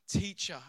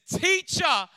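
First: Said in the usual way. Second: "Teacher" cried out high and loud; "Teacher" as a loud, high joyful cry; joyful exclamation. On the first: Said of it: "as in saying". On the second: Retold or imitated. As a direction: burst out with "Teacher" in recognition. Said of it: "and exclaims".

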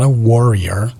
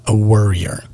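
First: "warrior" said like the team name, WAR-ee-er; pronounced WAR-rior. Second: "worrier" said from worry, WUR-ee-er; pronounced WUR-rier. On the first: Podcaster clarifying a word for listeners, "warrior" pronounced WAR-ee-er. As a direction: stretch out "warrior" with an open WAR. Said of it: "the Golden State Warriors". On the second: Podcaster naming his own flaw, "worrier" pronounced WUR-ee-er. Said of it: "I worry about anything and everything". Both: Shown as a demonstration.

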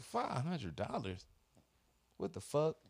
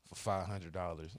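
First: Higher, slow, stunned echo of "five hundred dollars"; retold disbelief. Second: Said in the usual way. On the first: Repeating the insurer's charge back, stunned and indignant. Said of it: "I'm like".

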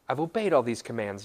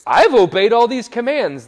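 First: Said in the usual way. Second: Loud, high proclamation; young man's boast. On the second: Acted. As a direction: burst out with a proud, booming claim. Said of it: "the guy replies with this".

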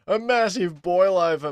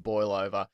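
First: "massive boil over" said high and loud, mocking the cliché; mock emphatic. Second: Said in the usual way. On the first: Shown as a demonstration. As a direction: overplay "massive" like a commentator. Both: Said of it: "I hate using the word boil over".

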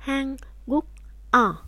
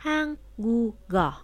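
First: Hanguk-o with each syllable separate, final k not carried over; unlinked Korean. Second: Hanguk-o slowly, final k carried onto o as gu-go; linked Korean. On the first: Teacher shows the unlinked reading to students, syllables apart. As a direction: say Hanguk-o without linking the sounds. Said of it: "nếu như mình đọc không có nối âm". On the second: Teacher shows the linked reading to students, slowly. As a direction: stretch Hanguk-o out so the k glides into the vowel. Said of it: "khi mình nối âm". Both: Shown as a demonstration.

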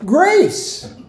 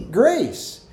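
First: High, bright call of the answer; eager answer. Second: Said in the usual way. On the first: Shown as a demonstration. Pastor calling out the answer to the congregation, high and eager. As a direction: sing out the answer like a quiz winner.

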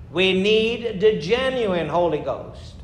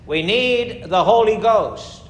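First: Slow, leaning hard on "genuine Holy Ghost"; a slower, weighted "the genuine Holy Ghost"; stress on genuine. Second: Said in the usual way. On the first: Shown as a demonstration. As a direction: draw out "genuine" to set it apart.

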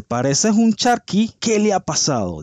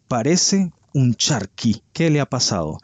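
First: Pareces un charqui pitched much higher and slowed, camp mockery; mock catty insult. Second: Said in the usual way. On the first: Quoting a celebrity's jab at a rival, hammed-up mocking. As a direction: sneer it in a high, teasing voice. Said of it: "Le dice". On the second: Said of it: "diciéndole".

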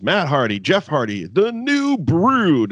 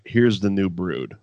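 First: High, drawn-out announcer call; hammed-up announcer intro; mock ring announcer. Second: Said in the usual way. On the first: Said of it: "the way Lillian Garcia announces". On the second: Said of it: "you should just be like".

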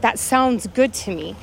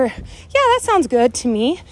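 First: Calm agreement. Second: Cheerful agreement. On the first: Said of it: "that verbiage". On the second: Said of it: "I'll say it in those, that verbiage". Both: Shown as a demonstration.

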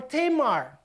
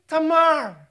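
First: "Tamar" said TAY-mar, with a long first vowel; English pronunciation. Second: "Tamar" said ta-MAR, stress on the second syllable; Filipino pronunciation. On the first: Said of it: "your pronunciation". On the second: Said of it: "we pronounce it Tamar". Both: Shown as a demonstration.

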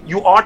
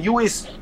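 First: Said in the usual way. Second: La forma del slang: "you is"; you is en lugar de "you are". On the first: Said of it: "en vez de decir". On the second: Shown as a demonstration. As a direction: di "you is", con is en vez de are. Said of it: "te dicen". ("you is" dicho como en el inglés afroamericano)

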